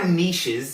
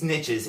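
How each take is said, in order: First: The word is said in a careful pronunciation. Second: The word is said in an everyday pronunciation.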